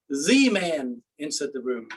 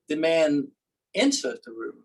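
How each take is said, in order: First: The stress is on "The". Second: The stress is on "entered".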